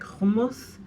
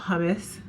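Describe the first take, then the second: First: It is said with a non-American, foreign pronunciation. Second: It is said with an American English pronunciation.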